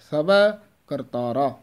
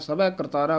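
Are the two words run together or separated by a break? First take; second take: separated; run together. First: A short break separates the two words. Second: The two words are run together without a break. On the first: The speaker calls it right. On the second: The speaker calls it wrong.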